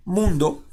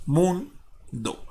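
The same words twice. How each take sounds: First: Said in the usual way. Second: "mundo" slowly broken as mun, pause, do; split into syllables. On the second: Shown as a demonstration. Teacher finishing the verse division, "mundo" syllable by syllable. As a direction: separate the two syllables of "mundo". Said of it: "vamos a dividirlo a través de sílabas".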